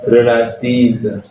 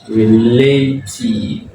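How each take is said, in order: First: Relative said the French way, with an A in the middle; French pronunciation. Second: Relative drawn out slowly as re-LAY-teev; English-style pronunciation. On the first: Teacher reads out the word for learners, French pronunciation. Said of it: "là, c'est le mot". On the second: Teacher models the borrowed word, slow English-style pronunciation. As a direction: stretch relative, AY in the middle, long EE in -tive. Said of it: "On va dire relative". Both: Shown as a demonstration.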